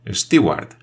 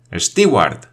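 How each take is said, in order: First: A moderate shout with a foreign lilt; shout with a foreign accent. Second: Louder shout. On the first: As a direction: call out for the steward, foreign-accented. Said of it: "gritó con un acento extranjero". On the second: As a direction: call the steward again, louder. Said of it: "repitió con voz más fuerte". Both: A narrator's reading.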